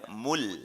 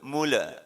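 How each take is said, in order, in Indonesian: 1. Huruf l di akhir ditahan tanpa memantul. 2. Huruf l di akhir memantul dengan vokal tambahan.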